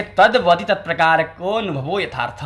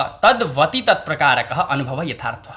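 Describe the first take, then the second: First: "तत्प्रकार को अनुभवो" run together with an o sound; joined recitation. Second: Slow, "तत्प्रकारकः" ending in a breathed ha, apart from "अनुभव"; words separated. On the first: Teacher reciting the definition to students, joined recitation. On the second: Teacher breaking down the definition for students, words separated. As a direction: split "तत्प्रकारकः" from "अनुभव", slowly. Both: Shown as a demonstration. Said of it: "थोड़ा सा विश्लेषण है".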